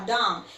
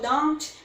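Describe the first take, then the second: First: The final T sound is left off. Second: The final T sound is clearly pronounced. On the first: "Esse T vai sumir da tua pronúncia" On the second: "se for don't"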